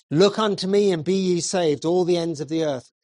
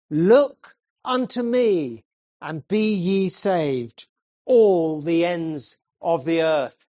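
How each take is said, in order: First: Said in the usual way. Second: Slow weighty scripture reading; slow solemn text reading. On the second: Acted. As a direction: stretch 'Look unto me' out slowly and weightily. Preacher quoting text slowly.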